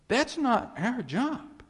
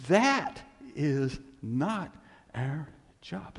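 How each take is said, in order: First: That's not our job high and loud with not punched; loud insistence. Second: That is not said very slowly, each word apart; slow emphasis. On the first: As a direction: proclaim it high and strong. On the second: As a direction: spell it out word by word. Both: Acted. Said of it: "I can't get any more clear".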